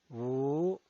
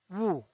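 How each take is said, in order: First: The pitch rises from mid to high. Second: The pitch falls from high to low. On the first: "El segundo tono es ascendiente" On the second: "El cuarto tono es un tono bajado"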